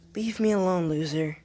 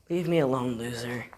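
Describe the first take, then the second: First: It is said in a put-on character voice. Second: It is said closer to the speaker's normal voice.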